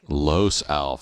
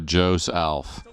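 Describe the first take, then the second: First: The name begins with an L sound. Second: The name begins with a J sound.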